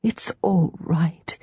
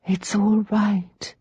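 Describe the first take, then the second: First: Soothing murmur. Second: Slow, gentle soothing; calm her sister slowly; soothing murmur. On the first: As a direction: murmur it again to comfort. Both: Acted. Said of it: "Rachel murmured over and over".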